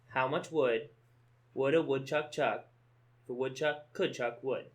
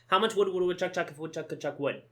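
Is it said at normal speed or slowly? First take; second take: slowly; normal. First: It is said slowly. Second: It is said at normal speed.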